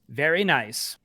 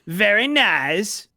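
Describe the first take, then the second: First: A weak, half-hearted Borat impression. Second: A fuller, committed Borat impression.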